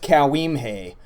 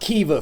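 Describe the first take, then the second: First: The name begins with a 'cow' sound. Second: The name begins with a 'key' sound. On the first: The speaker calls it wrong. "The readers among you might guess" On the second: The speaker calls it right. "It's pronounced Kiva"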